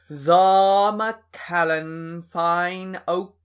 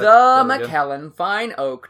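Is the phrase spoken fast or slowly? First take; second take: slowly; fast. First: The words are said slowly, one by one. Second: The words are run together at a quick pace.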